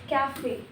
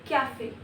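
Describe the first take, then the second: The two takes are said the same way.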